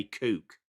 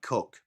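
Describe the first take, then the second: First: "kook" with a long oo vowel; "kook" in the speaker's native accent, long oo; native-accent pronunciation. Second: Said in the usual way. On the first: Shown as a demonstration. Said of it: "I just wanna say kook". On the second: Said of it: "My accent really doesn't like Cook".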